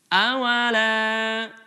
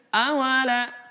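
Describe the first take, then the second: First: The vowel is drawn out to a measured length. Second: The vowel is cut short and barely lengthened. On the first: The speaker calls it right. "cukup kita baca dengan cara melantunkan suaranya" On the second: The speaker calls it wrong. "tidak dibaca ala kadarnya"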